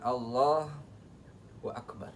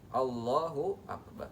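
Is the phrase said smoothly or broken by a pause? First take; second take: broken; smoothly. First: The phrase is broken by a pause. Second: The phrase flows without any break. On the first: The speaker calls it wrong. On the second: The speaker calls it right. "Nggak boleh putus tuh"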